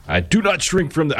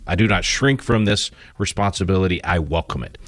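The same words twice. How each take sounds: First: Put-on half-hearted Massachusetts accent, pitched high; abandoned try at a Massachusetts accent; Kennedy Massachusetts accent. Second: Said in the usual way. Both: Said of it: "I can't do a, do a Massachusetts accent".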